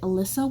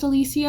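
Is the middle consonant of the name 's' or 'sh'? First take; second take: s; sh. First: The name is said with an 's' sound. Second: The name is said with an 'sh' sound. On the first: The speaker calls it wrong. "I kept pronouncing it Alyssa" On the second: The speaker calls it right. "I think her name was pronounced Alicia"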